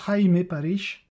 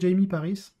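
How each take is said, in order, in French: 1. Le prénom se prononce à l'espagnole. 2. Le prénom se prononce à l'anglaise. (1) "ça se prononce bien Jaime Paris. Parce qu'il est espagnol" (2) "j'aime bien les- l'appeler plutôt Jamie Paris, c'est plus simple pour moi"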